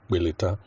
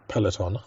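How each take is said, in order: First: The word is said with Yoruba-accented sounds. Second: The word is said with standard English sounds. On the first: "they would say Beleta" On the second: "instead of saying Peloton"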